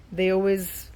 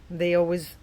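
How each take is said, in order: Both takes have the same delivery.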